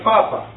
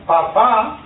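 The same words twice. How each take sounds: First: The stress is on the first syllable. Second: The stress is on the last syllable. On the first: "No accent on the last A" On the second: "it will have an accent on the last A"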